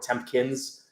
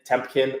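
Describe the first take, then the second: First: A p sound and a final s are added. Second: A p sound is added in the middle. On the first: "a S at the end" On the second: "add a P in the middle"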